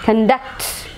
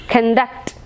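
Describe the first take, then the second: First: The stress is on the second syllable. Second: The same.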